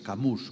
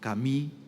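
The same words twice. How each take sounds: First: The name is said with Spanish pronunciation. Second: The name is said with French pronunciation.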